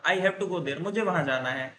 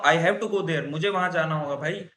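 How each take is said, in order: First: Said in the usual way. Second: Firm, insistent "I have to go there"; urgent, must-go insistence; compulsion tone. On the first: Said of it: "ये मेरा हो गया normal tone". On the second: Shown as a demonstration. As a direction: say it like you really must go. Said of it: "और मैं बोलूँ".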